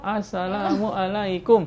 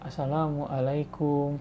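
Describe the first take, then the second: First: The greeting is said with a lively melody. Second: The greeting is said slowly and flatly. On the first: Listeners answer in the same lively way. "Kalau salamnya pakai nada" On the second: Listeners answer just as slowly. "Seslow itu"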